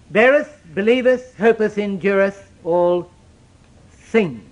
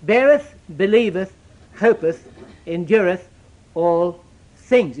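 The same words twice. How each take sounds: First: Each verb weighed out slowly; emphasis on BEARETH. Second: "beareth" ringing out, the others settling; emphasis on BEARETH. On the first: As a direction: lean into each verb, starting strong on "Beareth". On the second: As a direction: point at each word, first one loudest. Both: Shown as a demonstration. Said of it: "I want you to notice here".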